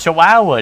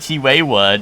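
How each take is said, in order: First: The word ends with a 'wow' sound. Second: The word ends with a short 'wa' sound. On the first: The speaker calls it right. "That's like wow, dude" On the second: The speaker calls it wrong. "I do not say Chiwewa, dude. That's not right"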